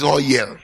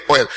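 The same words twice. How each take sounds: First: A light Igbo lilt, "Oh" stressed and falling; mild imitation of Igbo speech on "Oh, yeah"; lightly voiced Igbo accent; Igbo intonation. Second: Said in the usual way. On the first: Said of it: "It's intonation". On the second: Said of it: "why can't they just say oil?".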